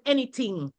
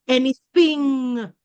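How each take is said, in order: First: "anything" said as "anyting"; Creole t sound. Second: "anything" with a drawn-out, clear th; tongue-between-teeth th in "anything"; English th sound. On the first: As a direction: use a hard t in the middle of "anything". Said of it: "that difference between the t". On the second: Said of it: "and the th". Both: Shown as a demonstration.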